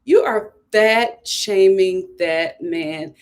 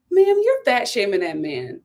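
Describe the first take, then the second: First: Each word of "You are fat shaming that man" spelled out slowly; slow emphatic repeat. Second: Said in the usual way. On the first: Real, not acted. A slow scolding line for a vlogger calling out a girlfriend.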